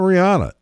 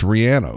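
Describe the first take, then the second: First: The middle syllable does not sound like 'Rhiannon'. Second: The middle syllable sounds like in 'Rhiannon'. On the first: The speaker calls it wrong. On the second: The speaker calls it right.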